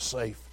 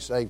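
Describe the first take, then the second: First: The word ends with a voiceless 'f' sound. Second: The word ends with a voiced 'vd' sound. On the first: "He says safe" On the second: "He don't say saved"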